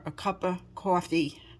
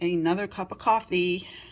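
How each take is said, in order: First: It is said in a New York accent. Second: It is said in her ordinary accent.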